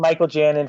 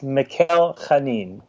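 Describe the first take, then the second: First: The surname begins with a soft 'j' sound. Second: The surname begins with a throaty 'ch' sound. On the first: The speaker calls it wrong. "I've been saying Michael Janin for a long time" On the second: The speaker calls it right. "It's Mikhail Chanin. It's like like a little Hebrewish Chanin"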